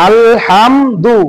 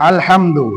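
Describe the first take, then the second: First: আলহামদু said very slowly, broken into আল, হাম, দু; আলহামদু in slow, detached syllables; syllables separated. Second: আলহামদু run together as one word; আলহামদু said connected, in one go; syllables joined. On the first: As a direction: stretch each syllable of আলহামদু on its own. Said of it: "মুক্ত". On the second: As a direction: join আল, হাম and দু without gaps. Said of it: "এখন যুক্ত আমরা করি দেখি". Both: Shown as a demonstration.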